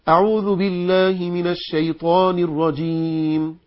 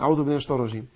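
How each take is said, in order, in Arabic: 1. تُقرأ ببطء بأسلوب مرتّل وممدود. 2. تُقال بسرعة بأسلوب عادي وبسيط. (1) "وقرأ هكذا بالترتيل" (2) "لا، أصلا دي مش طريقة لقراءة القرآن"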